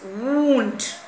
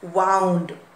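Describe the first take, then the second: First: It is pronounced as the noun form. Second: It is pronounced as the verb form. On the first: An injury you get when hurt. "since it's N, it's wound" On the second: Turning something or making it work. "This is a verb, same spelling, but you pronounce it as wound"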